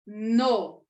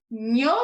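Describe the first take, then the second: First: "no" isolated with simple N; plain N syllable. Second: "Nho" isolated as palatal nyo; NH syllable. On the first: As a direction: sound out "no" alone, no palatal. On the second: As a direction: sound out "Nho" alone. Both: Shown as a demonstration. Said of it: "tá vendo?".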